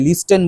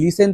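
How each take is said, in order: First: The word is said with a clear 't' sound. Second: The word is said without a 't' sound. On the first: The speaker calls it wrong. "লিস্টেন বলবে না" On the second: The speaker calls it right. "তোমরা জানো teacher silent থাকবে"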